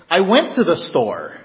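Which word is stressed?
went. The word went is stressed. The trip has already happened.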